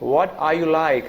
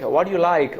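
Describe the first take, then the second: First: Every word is said fully, including 'are'. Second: It is said fast, with 'are' dropped.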